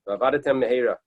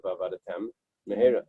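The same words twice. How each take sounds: First: V'avadetem mehera run together with one mem sound; slurred together. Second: V'avadetem, a clear break, then mehera with both mem sounds; pause between words. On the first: Teacher showing the wrong way, one mem sound. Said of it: "you're using only one mem sound". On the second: Teacher showing the right way with a pause. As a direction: stop after v'avadetem before saying mehera. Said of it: "you have to make a pause". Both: Shown as a demonstration.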